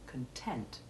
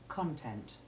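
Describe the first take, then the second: First: The stress is on the second syllable. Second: The stress is on the first syllable. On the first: It is the adjective meaning satisfied. "the adjective content, in which the first syllable is unstressed" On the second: It is the noun meaning what is inside. "the main stress is on the first syllable in the noun"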